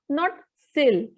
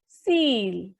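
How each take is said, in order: First: The vowel is a short 'i' sound. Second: The vowel is a long 'ee' sound. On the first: The speaker calls it wrong. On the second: The speaker calls it right. "the pronunciation will be seal"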